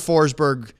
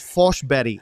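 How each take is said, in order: First: The name is said with an English pronunciation. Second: The name is said with a Swedish pronunciation. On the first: The speaker calls it wrong. "we've been saying Forsberg" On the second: The speaker calls it right. "the proper Swedish pronunciation is Forsberg"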